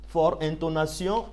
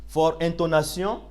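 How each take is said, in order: The two takes are said the same way.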